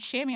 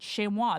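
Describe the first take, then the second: First: The word is said with an English pronunciation. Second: The word is said with a French pronunciation. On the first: This is how the officials said it at the contest. "then they said chamois" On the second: This is how a parent said it during practice. "she pronounced that word, chamois, the entire time"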